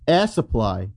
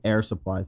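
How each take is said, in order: First: It is said with an imitated foreign accent. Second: It is said in the speaker's ordinary accent.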